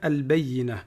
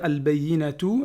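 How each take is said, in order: First: The word ends cut off with an h sound. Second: The word ends with a full 'tu' syllable. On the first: The reciter stops at the end of the verse. "à l'arrêt... il se prononce comme un ha" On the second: The recitation continues without stopping. "normalement, on devrait dire al-bayyinatu"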